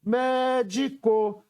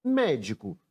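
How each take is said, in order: First: "médico" slow and high, MÉ held long; chamando a palavra. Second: Said in the usual way. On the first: Shown as a demonstration. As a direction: call out "médico", stretching its first syllable. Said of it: "Chamando a palavra médico para descobrir a sílaba tônica". ("médico" com o MÉ alongado e agudo) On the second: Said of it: "Chamando a palavra médico".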